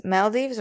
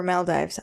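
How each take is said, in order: First: Maldives said "mal-DEEVS". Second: Maldives said "mal-DYVES"; Maldives with an eye. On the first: Podcaster trying both readings of a quiz answer, Maldives with long ee. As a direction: end Maldives like "deeves", long ee. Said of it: "Maldives or Maldives? I'm sorry". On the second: Podcaster unsure of a quiz answer tries Maldives with a long i. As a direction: end Maldives to rhyme with "dives". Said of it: "it's probably Maldives". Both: Shown as a demonstration.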